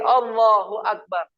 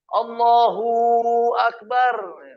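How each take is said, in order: First: The 'hu' is short and light. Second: The 'hu' is exaggerated and drawn out. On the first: The speaker calls it right. "Hu aja kata-kata itu biar keluar" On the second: The speaker calls it wrong. "Tidak boleh berlebihan"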